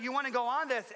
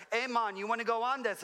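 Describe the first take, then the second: First: Said in the usual way. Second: Higher-pitched attempt at a Jamaican accent. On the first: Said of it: "that was my best Jamaican accent, I'm sorry". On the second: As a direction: imitate a Jamaican man calling out an offer. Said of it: "that was my best Jamaican accent".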